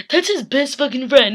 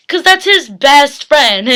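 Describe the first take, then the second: First: Laughing disbelief, swearing; amused and upset at once; laughing through it. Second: Slow and loud, leaning hard on 'that's'; slow, loud emphasis. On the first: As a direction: laugh the words out, exasperated. Laughs while repeating. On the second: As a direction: drag out 'that's' high and loud. Grief over the friend's death. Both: Real, not acted.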